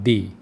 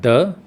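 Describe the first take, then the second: First: The word ends in a long 'ee' vowel. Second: The word ends in a short 'uh' vowel. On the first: "दूसरा हम उसको कहते हैं दी" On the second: "एक हम उसको कहते हैं द"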